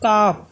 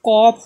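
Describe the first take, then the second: First: The vowel is an open 'ah' sound. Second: The vowel is a rounded 'aw' sound. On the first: The speaker calls it right. "বলবো কাফ। আ বলবো" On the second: The speaker calls it wrong. "কফ না বলে"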